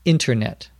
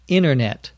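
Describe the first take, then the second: First: The T sound in the middle is pronounced. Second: The T sound in the middle is dropped. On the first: The word is said carefully. "If they're pronouncing it more carefully" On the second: The word is said quickly in normal conversation. "Many people just say internet, as if there were no T"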